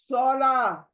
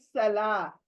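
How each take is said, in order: First: The first s is thick and heavy. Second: The first s is thin and hissing. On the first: The speaker calls it right. "सौद मोटी आवाज" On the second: The speaker calls it wrong. "सीन से पढ़ते हैं"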